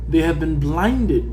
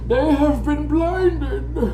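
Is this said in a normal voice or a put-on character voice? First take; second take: normal; character voice. First: It is said in the speaker's normal voice. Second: It is said in a put-on villain voice.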